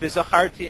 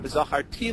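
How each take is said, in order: First: The stress falls before the last syllable. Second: The stress falls on the last syllable. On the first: It means I remembered. "the normal accent is zacharti" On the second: It means I will remember. "shift the accent uh, to the last syllable"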